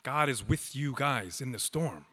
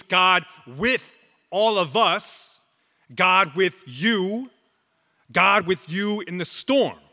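First: Much softer, intimate "God is with you guys in the storm"; softly repeated. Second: Loud, higher proclamation of "God with you in the storm"; proclaimed. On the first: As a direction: drop right down and say "God is with you guys in the storm" gently to them. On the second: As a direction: call "God with you in the storm" out to the congregation, raised and strong. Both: Real, not acted. Preacher proclaims, then repeats softly.

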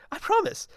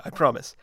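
First: High, squeaky I promise; mock-earnest squeaky pledge. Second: Said in the usual way. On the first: Shown as a demonstration.

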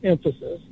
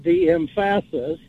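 First: Said in the usual way. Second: "emphasis" as em-FASS-is, middle syllable stressed; deliberately wrong stress on the second syllable of "emphasis"; misplaced stress. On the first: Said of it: "That's the whole point". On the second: Shown as a demonstration. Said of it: "haven't heard it quite pronounced like that".

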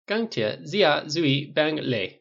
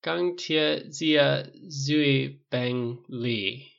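First: "钢铁zia zui bang le" slowly modelled, pitched up; demonstrating Mandarin. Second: Very slow, syllable-by-syllable Mandarin; repeating slowly. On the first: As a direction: teach "钢铁zia zui bang le" as a fluent, measured phrase. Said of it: "something you shouldn't have any trouble with. Try". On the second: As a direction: echo it haltingly, stretching every syllable. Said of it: "Tony repeated slowly". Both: A narrator's reading.

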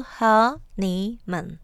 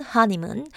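First: Honeymoon drawn out slowly, syllable by syllable, stressing the first. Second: Said in the usual way. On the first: Shown as a demonstration. Teacher showing learners the stress, honeymoon slowly split with first syllable stressed. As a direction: break honeymoon into three slow beats, weight on the first. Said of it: "with the stress on the first syllable". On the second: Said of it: "There are three syllables in honeymoon".

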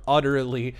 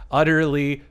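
The two takes are said the same way.

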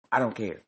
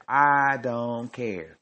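First: Said in the usual way. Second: "I don't care" stretched very slowly; long, slow "care", falling at the end; drawn-out defiance. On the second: Real, not acted. Defiant, repeats it shorter after.

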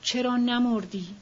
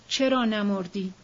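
First: چرا نمردی with نمردی leaned on and falling; stress on نمردی. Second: چرا pushed forward, نمردی left light; stress on چرا. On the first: Grieving woman asking herself, stress on نمردی. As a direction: hit نمردی, let it drop at the end. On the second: Grieving woman asking herself again, stress on چرا. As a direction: lead with چرا, the rest trailing. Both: A narrator's reading.

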